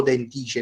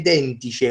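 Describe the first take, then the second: First: Dentice with the stress moved onto TI; alternative reading of Dentice. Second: Dentice drawn out slowly, first syllable stressed; first reading of Dentice. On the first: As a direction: offer Dentice as den-TI-ce, unsure. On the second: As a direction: try Dentice with stress on DEN. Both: Shown as a demonstration. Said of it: "o Dentice, non ci mai capito".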